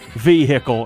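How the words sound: The word is said with a Southern American pronunciation.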